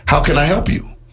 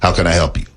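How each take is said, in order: First: It is said in an attentive, engaged tone. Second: It is said in a bored, uninterested tone. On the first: The helper is ready to serve you. The speaker calls it right. "the banker with perfect posture, direct eye contact saying" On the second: The helper does not care about you. The speaker calls it wrong. "slouched down in their seat and looking away from you saying, ... In that tone of voice"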